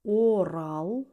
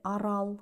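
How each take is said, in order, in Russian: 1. Первая гласная — полноценный звук О. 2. Первая гласная редуцируется до звука А. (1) "звук О в безударных слогах всегда произносится как О" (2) "а не"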